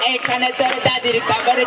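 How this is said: It is recited in an affected, camp voice. A hijra from Arambagh is reciting. "আরামবাগের হিজড়া"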